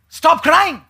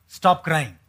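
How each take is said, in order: First: Firmer, slightly raised stop crying; firm God rebuke. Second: Soft stern God. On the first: God rebuking the crying Israelites, firm voice. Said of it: "Isn't that what he said". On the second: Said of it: "the Lord said to Moses". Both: Retold or imitated.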